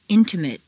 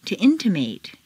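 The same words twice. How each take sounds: First: "Intimate" ending in weak "-mut"; reduced ending. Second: "intimate" ending in long "-MATE"; full A ending. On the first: Teacher models adjective "Intimate" with reduced final vowel. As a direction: shrink the last vowel of "Intimate". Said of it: "completely reduced". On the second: Teacher models verb "intimate" with full final A. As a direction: open out the last A of "intimate". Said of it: "it's a full A sound". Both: Shown as a demonstration.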